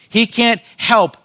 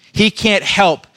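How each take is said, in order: Both takes have the same delivery.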